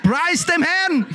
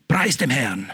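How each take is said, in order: First: Higher, slow, drawn-out praise; lightly voiced player praising God; footballer's praise. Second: Lower, softer, murmured praise; a hint of a devout footballer; footballer's quiet praise. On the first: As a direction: sing it out with delight. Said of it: "Der hat gesagt". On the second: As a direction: hush it like a player's aside. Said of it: "was ein Spieler gesagt hat".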